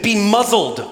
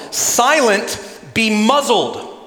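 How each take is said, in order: First: A firm "Be muzzled" with the weight on "muzzled"; commanding rebuke. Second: Louder, slower "Silent, be muzzled" with "muzzled" falling and drawn out; commanding the storm. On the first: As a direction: order the demon to silence, falling on "muzzled". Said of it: "He says to the demon". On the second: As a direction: rebuke the storm, stretching out "muzzled". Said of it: "his words is to the storm". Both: Acted.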